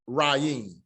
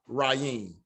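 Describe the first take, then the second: The two takes are said the same way.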